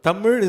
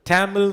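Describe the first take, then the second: First: The word is pronounced with native Tamil sounds. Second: The word is pronounced with an English-style accent. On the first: The speaker calls it right. "தமிழ் is the right way we say" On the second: The speaker calls it wrong. "Tamil சொன்னா தப்பு"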